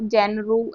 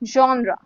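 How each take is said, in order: First: It begins with a 'jen' sound. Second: It begins with a 'zhon' sound. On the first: The speaker calls it wrong. "ऐसे कुछ नहीं बोलते" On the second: The speaker calls it right. "इसको हम बोलेंगे जॉनरा"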